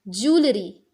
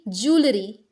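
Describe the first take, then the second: Both takes have the same delivery.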